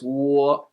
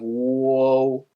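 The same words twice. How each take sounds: First: The vowel stops cleanly on o. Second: The vowel glides into an extra oo sound. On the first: The speaker calls it right. "No need to add another U sound on the end" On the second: The speaker calls it wrong. "instead of"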